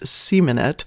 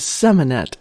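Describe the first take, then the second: First: The first syllable sounds like 'see', as in semen. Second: The first syllable sounds like 'sem', a short vowel. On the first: The speaker calls it right. "Clearly, it's pronounced Semanet. ... Semen is the proper pronunciation" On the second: The speaker calls it wrong. "I realized that I kept calling it the Semanet"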